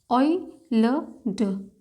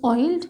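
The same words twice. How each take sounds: First: ऑयलड stretched out very slowly, sound by sound; teacher sounding out ऑयलड slowly for students. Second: Said in the usual way. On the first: Shown as a demonstration. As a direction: drag ऑयलड out for the class.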